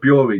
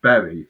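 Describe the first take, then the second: First: The name does not sound like 'berry'. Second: The name sounds like 'berry'. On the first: The speaker calls it right. "It's Bu- Bury" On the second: The speaker calls it wrong. "not Berry"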